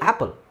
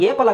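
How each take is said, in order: First: The first vowel is a short open 'a' sound. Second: The first vowel is said like the letter name 'ay'. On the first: It follows the sound the letter makes in words. "Why do you say ಆಪಲ್?" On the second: It follows the name of the first letter. "ಅದು ಏಪಲ್ ಆಗಬೇಕಲ್ವಾ?"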